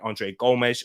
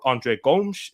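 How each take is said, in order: First: The name is said with English pronunciation. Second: The name is said with Portuguese pronunciation.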